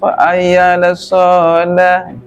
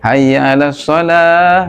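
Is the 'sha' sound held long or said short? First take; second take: long; short. First: The 'sha' sound is held long. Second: The 'sha' sound is said short. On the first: The speaker calls it wrong. "Ini ada lagu kayak gini" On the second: The speaker calls it right. "shadnya jangan ditahan, ... gitu langsung"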